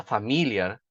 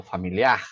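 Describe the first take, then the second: First: Familiar stressed on MI, before the last syllable; shifted stress. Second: Familiar stressed on the final syllable; Portuguese pronunciation. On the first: Teacher shows a confusing mispronunciation, familiar with stress shifted to MI. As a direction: move the weight of familiar onto fa-MI-liar. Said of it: "Eu só mudei o, o acento". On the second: Teacher models the word in Portuguese, familiar stressed on the last syllable. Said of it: "em português". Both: Shown as a demonstration.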